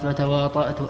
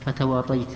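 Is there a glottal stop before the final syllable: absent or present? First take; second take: present; absent. First: The word is said with a glottal stop. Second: The word is said with a y sound, no glottal stop. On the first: "وأصله تواطأت بالهمزة بالهمز" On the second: "هكذا هو في النسخ فتواطيت"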